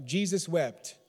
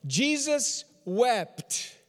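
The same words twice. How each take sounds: First: Said in the usual way. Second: JESUS and WEPT each drawn out, higher; slow emphasis. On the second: Real, not acted. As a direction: preach it word by word, stretching "Jesus wept". Repeats the verse for emphasis.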